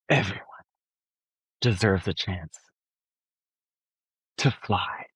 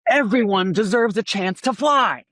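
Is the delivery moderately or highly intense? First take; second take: moderately; highly. First: It is said with moderate, medium-angry intensity. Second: It is said with high, heightened intensity.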